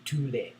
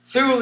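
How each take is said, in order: First: Thule said TOO-lay, softly; American pronunciation. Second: Thule as one syllable, THOOL; usual British pronunciation. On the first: Retold or imitated. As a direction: say Thule with a hard T and two syllables. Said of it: "Americans call it". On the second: Shown as a demonstration. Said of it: "the way we've always pronounced it".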